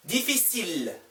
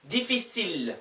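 No difference in how they are said.

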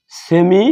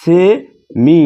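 First: Said in the usual way. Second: semi stretched very slowly and pushed a little louder; drawn-out emphasis. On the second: Shown as a demonstration. Teacher to class introducing semi vowels, drawn out and stressed. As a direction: hold and lean on semi so it sticks. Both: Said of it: "এখানে".

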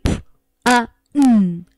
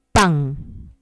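First: Pan broken into p, a, n, each sound separate; wrong split into sounds. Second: Pan said as one single beat; whole word. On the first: Teacher showing the wrong way to split pan. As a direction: spell out p, a, n as three separate sounds. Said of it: "No puedo hacer eso". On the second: Teacher showing the right way, pan kept whole. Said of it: "Tengo que decir pan". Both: Shown as a demonstration.

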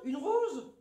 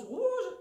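First: Une rose with a closed o; her usual way. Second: Rose tried with an open southern o, pitched higher; failed attempt. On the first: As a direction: give up and say rose normally. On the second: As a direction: strain to say rose the other way. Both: Shown as a demonstration. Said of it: "j'arrive pas à dire rose".

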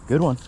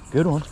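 Both takes have the same delivery.

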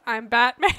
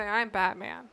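First: Loud, gruff mock Batman growl; hammed-up Batman line. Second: Said in the usual way. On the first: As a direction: growl it like the caped crusader. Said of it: "One of these is just". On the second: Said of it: "and you say".

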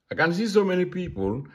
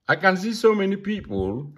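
Both takes have the same delivery.

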